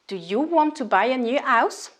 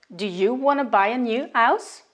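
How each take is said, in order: First: Want to is said in full as two words. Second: Want to is reduced to one word, wanna.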